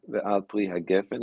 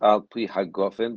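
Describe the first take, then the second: First: The last word's first vowel sounds like 'e'. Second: The last word's first vowel sounds like 'o'. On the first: It is used in the middle of the blessing. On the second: It is used at the end of the blessing.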